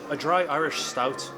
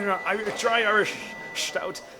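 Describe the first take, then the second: First: It is said in a plain, ordinary accent. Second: It is said in a put-on Irish accent. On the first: "forget Seamus" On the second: "I will finish this review in an Irish accent"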